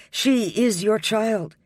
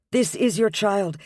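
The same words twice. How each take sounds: First: Put-on She is your child, She hit hard and slow; stress on She. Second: Put-on This is your child with This lifted and hit; stress on This. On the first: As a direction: land heavily on She. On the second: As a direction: press hard on This. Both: A narrator's reading. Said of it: "her vehemence".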